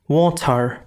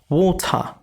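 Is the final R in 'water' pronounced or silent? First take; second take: pronounced; silent. First: The final R is clearly pronounced. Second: The final R is not pronounced. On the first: "I'm not saying as water" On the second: "I'm not pronouncing the R at the end"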